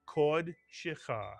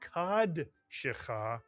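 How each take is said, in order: First: The first syllable has an 'oh' vowel. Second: The first syllable has an 'ah' vowel. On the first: The speaker calls it right. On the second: The speaker calls it wrong. "this would not be kad shecha"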